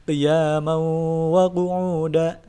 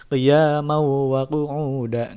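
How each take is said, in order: First: Qiyamau wa with the nasal hum held; slow chant, hold the ghunnah on wa; sung, held ghunnah recitation. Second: Qiyamau wa with no held hum; mock-wrong, nasal dropped straight away; wrong, released at once. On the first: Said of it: "jadi ditahan untuk beberapa saat". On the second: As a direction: incorrect recitation. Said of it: "Enggak seperti itu". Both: Shown as a demonstration.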